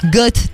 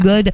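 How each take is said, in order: First: The word ends with a th sound. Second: The word ends with a d sound. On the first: The speaker calls it right. "th, goth" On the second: The speaker calls it wrong. "pas un god"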